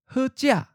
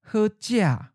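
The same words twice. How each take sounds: First: The tone syllable is high and cut short. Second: The tone syllable falls from a high pitch. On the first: "High stop" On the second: "the eighth tone is often of a high falling tone"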